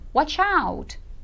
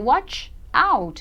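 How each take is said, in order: First: The two words run together as one. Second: The two words are said separately. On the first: The speaker calls it right. "você pronuncia como se fosse uma coisa só" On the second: The speaker calls it wrong. "Você não vai dizer watch out"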